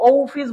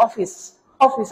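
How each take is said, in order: First: অফিস with a long round O, "oh-fis"; wrong pronunciation. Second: অফিস with a short open "aw", "awfis"; correct pronunciation. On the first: Teacher showing what was not said, long "oh-fis" for অফিস. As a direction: stretch অফিস into "ohh-fis". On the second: Teacher repeating the form used, short "awfis" for অফিস. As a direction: start অফিস on a short aw vowel. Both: Shown as a demonstration. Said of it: "আমি তো এটাকে অফিস বলি নাই".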